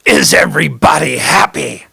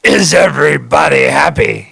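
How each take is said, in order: First: [name] catchphrase. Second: Lightly imitated old record voice shouting to the crowd; [name] on the record. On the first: Retold or imitated. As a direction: lightly imitate the vaudeville host shouting to the crowd. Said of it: "he'd go". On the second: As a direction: call it out like the vaudeville singer at the song's end. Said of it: "it goes".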